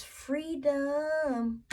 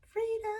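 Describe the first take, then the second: First: Slow, savoured "It's freedom", each word stretched; drawn-out freedom. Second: "Freedom" flung up high, bright exclamation; high exclaimed freedom. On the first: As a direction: linger on "freedom" as if tasting it. Savouring card meaning. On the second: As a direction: toss "Freedom" up as a joyful echo. Echoing card meaning. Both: Real, not acted.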